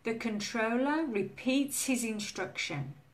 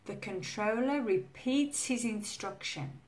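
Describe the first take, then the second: No difference in how they are said.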